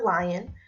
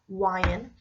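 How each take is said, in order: First: The word begins with an L sound. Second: The word begins with a W sound.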